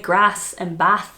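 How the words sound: It is said in a northern English accent. "I moved up north and now I say"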